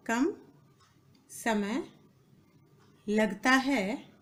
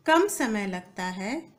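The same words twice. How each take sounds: First: Each word apart, long pauses; word-by-word dictation. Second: Said in the usual way. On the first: Shown as a demonstration. Teacher dictating to students, slow and broken up. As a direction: dictate slowly, leaving time to write.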